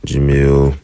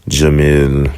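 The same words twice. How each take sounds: No difference in how they are said.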